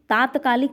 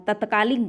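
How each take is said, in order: First: तात्कालिक with a long first aa, taat-kaa-lik; correct form taatkalik. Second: तत्कालिक with a short first a, tat-kaa-lik; wrong form tatkalik. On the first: Teacher giving students the correct form: तात्कालिक with a long aa. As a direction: stretch the first vowel of तात्कालिक. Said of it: "शुद्ध शब्द है". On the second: Teacher showing students the wrong form: तत्कालिक with a short first a. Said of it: "तत्कालिक गलत है". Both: Shown as a demonstration.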